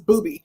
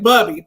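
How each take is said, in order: First: The name has its native vowel sound. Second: The name has an American English vowel sound. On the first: The speaker calls it right. "but it's Booby" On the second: The speaker calls it wrong. "it's the American English. I want to say Bubby"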